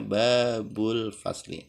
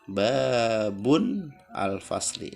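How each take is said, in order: First: The first word links straight into l. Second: The first word ends with an n sound. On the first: The speaker calls it right. "jadi bacanya babul fasli" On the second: The speaker calls it wrong. "Tidak boleh dibaca babun al fasli karena tanwinnya hilang"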